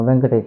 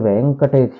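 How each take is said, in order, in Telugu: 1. 'e' అచ్చు హ్రస్వం. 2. 'e' అచ్చు దీర్ఘం. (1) "అని అనకూడదు" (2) "ఇక్కడ వెంకటేశ అని అనాలి"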